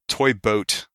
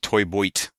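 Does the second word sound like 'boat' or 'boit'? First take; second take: boat; boit. First: The second word has a plain 'oh' vowel. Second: The second word has an 'oy' vowel. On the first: The speaker calls it right. "the toy boat" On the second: The speaker calls it wrong. "turns into toy boit very quickly"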